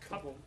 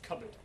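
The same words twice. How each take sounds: First: The second syllable is a full 'board'. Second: The second syllable is reduced and weak. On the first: This follows the spelling. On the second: This is how the word is said today. "It's now just cupboard"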